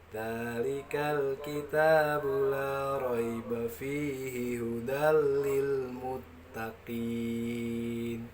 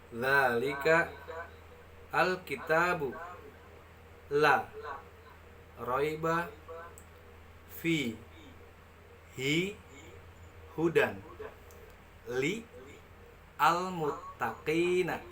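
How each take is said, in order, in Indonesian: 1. Kata-katanya mengalir tanpa jeda di antaranya. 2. Setiap kata dibaca terpisah dengan jeda di antaranya. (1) "itu dibaca secara tajwid" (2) "Itu dibaca perkata"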